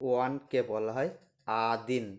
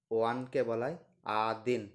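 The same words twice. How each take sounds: The two takes are said the same way.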